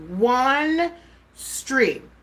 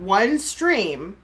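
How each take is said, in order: First: "One" pitched high, then a pause before "stream"; emphatic repetition. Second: Said in the usual way. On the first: Real, not acted. Streamer defending one past broadcast, "One stream" slowly hammered out. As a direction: set "One" and "stream" apart, each stressed.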